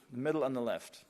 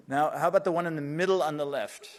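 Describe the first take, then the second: First: Said in the usual way. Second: Raised voice to the back of the room; calling out. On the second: Real, not acted. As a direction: call it out across the hall. Calling to tech support.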